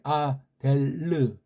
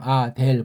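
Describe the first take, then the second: First: A light vowel follows the final l sound. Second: The word ends cleanly on the l sound. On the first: "원래 이게 아델르. 르라고 살짝 해줘야 되는데" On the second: "그냥 아델 보통 이렇게 하죠"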